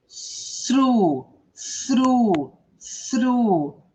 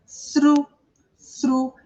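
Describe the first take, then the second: First: "sru" with a blown th and a drawn-out u; teacher's stretched "sru", falling on the long vowel; long vowel demo. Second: "sru" with the tongue-between-teeth hiss, short vowel; isolated teaching "sru", u not yet lengthened; th-r-u demo. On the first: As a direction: hold the u in "sru" long, tongue between the teeth at the start. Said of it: "Que o som é longo". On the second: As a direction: say "sru" as a blown th, then r and a brief u. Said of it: "eu só tenho um R e um, a letra U. Só isso". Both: Shown as a demonstration.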